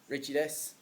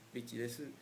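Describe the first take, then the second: First: It is spoken with an Irish accent. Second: It is spoken with a Japanese accent. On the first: The speaker calls it wrong. "I could butcher Japanese by saying it in an Irish accent" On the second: The speaker calls it right. "if I wanted to improve my understandability to a Japanese speaker"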